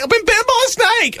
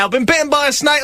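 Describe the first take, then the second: First: Very high, hammed-up panicked wail; escalating panic. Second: High-pitched mock panic; panicked cry. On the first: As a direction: push the mock alarm right to the top. Repeats the cry, escalating. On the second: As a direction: cry it out like an urgent patient. Acts out rushing to the doctors.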